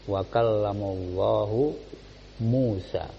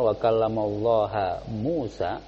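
First: Allah ends with a 'u' vowel. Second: Allah ends with an 'a' vowel. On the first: Allah is the one who speaks to Musa. The speaker calls it right. "Sehingga dia memakai dhamma Allahu" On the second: Musa is the one who speaks to Allah. The speaker calls it wrong. "maka yang mengajak bicara siapa? Musa"

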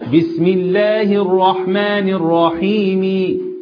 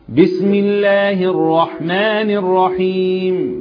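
First: The final vowel is pronounced fully. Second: The final vowel is pronounced faintly. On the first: "لو أنا هنطق الكسرة كاملة ... وده غلط طبعا" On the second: "نطقت الكسرة ضعيفة"

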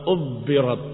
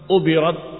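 First: The b is long and doubled. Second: The b is short and single. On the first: "wa tasdidiha" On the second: "Bisa dengan takfifil ba"

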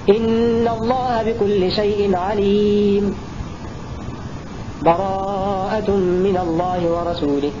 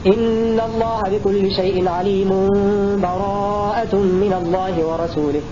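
First: A full stop with a breath separates the verses. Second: The two verses run together with no pause. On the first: "الوقف مع أخذ نفس" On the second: "وصل آخر الأنفال مع أول براءة بدون بسملة وبدون سكت"

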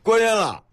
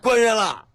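First: Beijing dialect with the syllables run together. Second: Beijing dialect with the syllables run together.

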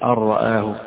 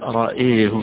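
First: Both vowels are fully open a sounds. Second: Only the second vowel leans toward e. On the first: "بالفتح" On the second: "وحيميل الهمزة لوحدها"

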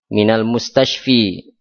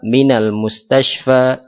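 First: The last word ends with an 'i' vowel. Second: The last word ends with an 'a' vowel. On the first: The speaker calls it wrong. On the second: The speaker calls it right. "Semuanya tetap"

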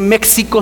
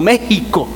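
First: The middle consonant is pronounced as ks. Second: The middle consonant is pronounced as a throaty h. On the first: This is the older way of saying it. The speaker calls it wrong. "ya pasó la X, pasó a ser J. Por eso ahora no se dice México" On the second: This is the current way of saying it. The speaker calls it right. "sino México"

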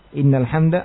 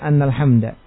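First: The phrase begins with the vowel 'i'. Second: The phrase begins with the vowel 'a'. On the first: It starts a new clause, making two sentences. The speaker calls it right. "diriwayatkan dengan kasrah inna" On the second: It gives a reason, making one sentence. The speaker calls it wrong. "dan juga fathahnya"

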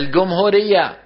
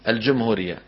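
First: The jim is said as a hard g sound. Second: The jim is said as a j sound. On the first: This is the Cairene dialect pronunciation. "بيقول لك مثلا الجمهورية" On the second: This is the standard pronunciation. "بدل ما يقول ايه الجمهورية"

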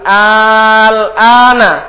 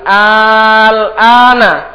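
First: It is read with an interrogative opening hamza. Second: It is read with an interrogative opening hamza.

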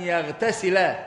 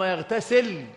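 First: The verb ends with a final a vowel. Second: The verb ends with no final vowel. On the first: It follows an implied 'an', meaning 'and'. "بالنصب" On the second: It is joined to the earlier prohibited verb. "بالسكون"

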